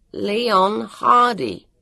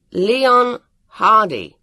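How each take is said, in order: First: Very deliberate, raised-voice command; high, ringing, drawn-out enunciation; loud and slow. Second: Loud, drawn-out call of a name; slow, high, emphatic summons. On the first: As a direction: give each word slowly and loudly. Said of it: "he told it loudly and slowly". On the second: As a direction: say it loudly and deliberately, raised pitch. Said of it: "he said loudly". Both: A narrator's reading.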